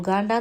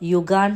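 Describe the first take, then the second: First: The word starts with a plain 'oo' sound. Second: The word starts with a 'yoo' sound. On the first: The speaker calls it wrong. "ഞാൻ ഉഗാണ്ട എന്ന് പറഞ്ഞപ്പോൾ" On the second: The speaker calls it right. "യുഗാണ്ട എന്നാണ് pronounce ചെയ്യാന്ന്"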